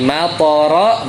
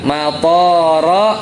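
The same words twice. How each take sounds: First: The vowel after the t is short. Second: The vowel after the t is long. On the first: It means rain. The speaker calls it right. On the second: It means airport. The speaker calls it wrong. "yang tadinya nggak panjang dipanjangin"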